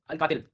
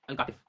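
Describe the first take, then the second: First: अल कातिल with an l at the end, like killer; wrong name as joke. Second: Al कातिफ with a clear f at the end, कातिफ; correct place name. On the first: Teacher jokes about the wrong name, कातिल with l. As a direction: say कातिल ending on l, mocking the slip. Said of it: "कातिल नहीं है ये". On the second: Teacher gives students the right name, कातिफ with f. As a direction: say कातिफ ending on f, not l. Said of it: "कातिल नहीं है". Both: Shown as a demonstration.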